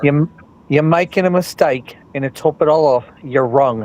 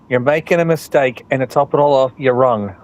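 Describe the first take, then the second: First: The line is said at a slower pace. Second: The line is said at a normal pace.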